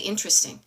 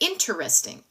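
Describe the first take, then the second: First: The word is shortened, with a syllable dropped. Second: The word is said with all its syllables. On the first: "It was like a little contraction. I say interesting" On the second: "he said interesting"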